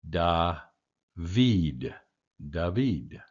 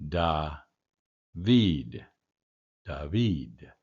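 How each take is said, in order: The two takes are said the same way.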